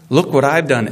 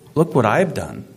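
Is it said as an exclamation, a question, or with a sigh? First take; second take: exclamation; question. First: It is said as a loud exclamation. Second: It is said as a questioning rise.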